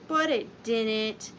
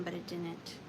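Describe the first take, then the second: First: Slow deadpan. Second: Said in the usual way. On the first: Acted. Deadpan repeat of a punchline.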